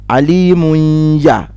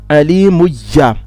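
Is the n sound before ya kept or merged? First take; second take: kept; merged. First: The n sound is clearly kept before ya. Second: The n sound merges fully into the ya. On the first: This follows one reciter's way of reading. "He read the same way with Hafs" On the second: This follows another reciter's way of reading. "but Khalaf Alimuyya"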